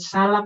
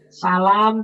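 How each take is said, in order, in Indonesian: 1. Vokalnya dibaca pendek. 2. Vokalnya dibaca panjang. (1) "salam yang tidak panjang" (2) "salam panjang"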